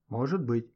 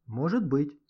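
First: Thoughtful. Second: Said in the usual way. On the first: A narrator's reading. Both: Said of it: "задумчиво проговорил Гошка".

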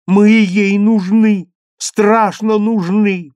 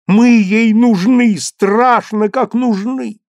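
First: Ей held long, loud and high; boy insists, stress on ей. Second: Мы stressed, loud, high and slow; boy insists, stress on Мы. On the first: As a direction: stretch out ей slowly. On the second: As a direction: lean on Мы slowly. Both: A narrator's reading. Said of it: "зазвенел высокий и чистый".

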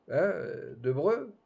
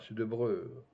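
First: Rising "de Breu?" in disbelief; puzzled, higher repeat; surprised echo. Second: Said in the usual way. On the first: Acted. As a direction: echo the name as a question.

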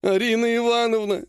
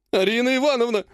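First: Whining. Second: Desperate howl. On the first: Healer Ogonkov whining to his clan head. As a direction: whine her name like a scolded boy. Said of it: "ныл он". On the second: Ogonkov howling in despair at the clan head. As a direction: howl it like a wounded animal. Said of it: "взвыл он, как раненый зверь". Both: Acted.

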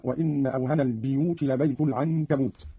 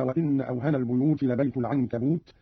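First: البيوت said as al-biyut, i after the b; biyut with kasra. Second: Said in the usual way. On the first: Shown as a demonstration. Teacher showing Qalun's kasra on البيوت. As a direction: say البيوت with an i, not u. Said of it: "بكسر الباء من لفظ البيوت هكذا". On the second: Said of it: "بكسر الباء من لفظ البيوت".

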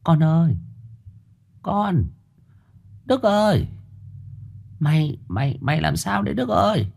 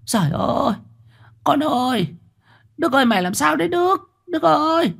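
First: Much higher, softer mother's voice, hesitant; a frightened mother gently coaxing her son; mother softly calling her dazed son; soft anxious mother. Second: Much higher, fast panicked mother's wail; mother crying out as son collapses; worried cry. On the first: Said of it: "khẽ cất tiếng để con mình ổn định". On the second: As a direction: cry out in fear for your son. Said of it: "Mụ Tâm lo lắng kêu lên". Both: Acted.

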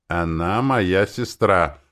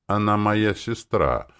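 First: Slow, stubborn insistence; slowly repeating, refusing to budge. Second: Forced out through dry lips. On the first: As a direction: dig in, each word dragged. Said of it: "упрямо повторила я". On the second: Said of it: "выдавила я сквозь пересохшие губы". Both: A narrator's reading.

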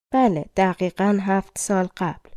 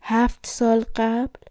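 First: Said in the usual way. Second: Higher, slow, rising question; mild narrated fright without shouting; understated frightened cry. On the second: A narrator's reading. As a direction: ask it in restrained, drawn-out alarm. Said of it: "جم از ترس فریاد کشید".

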